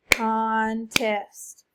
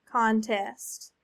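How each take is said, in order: First: Contest in two beats, long con, then test; clapped syllables. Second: Said in the usual way. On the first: Shown as a demonstration. Clapping out syllables after model word. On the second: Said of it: "What's the word?".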